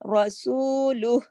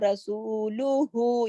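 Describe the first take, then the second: First: The word ends on an h sound. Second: The word ends with a final u vowel. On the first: The reader stops at this word. "यहाँ पे सुकून करेंगे आरजी तो उल्टा पेश यहाँ पे नहीं पढ़ेंगे" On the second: The reading continues without stopping. "रसूलुहु का जो उल्टा पेश है ना"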